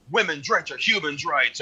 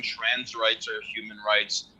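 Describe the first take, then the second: First: Chanted, imitating a rally slogan, slightly raised. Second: Imitated reluctant grumble, slower; grumbling. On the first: People at a rally chanting a slogan, imitated chant. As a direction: chant it like a marcher in brief imitation. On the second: Rally-goers reluctantly joining the slogan, grumbling. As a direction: grumble the slogan half-heartedly. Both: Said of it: "and then people are grumbling".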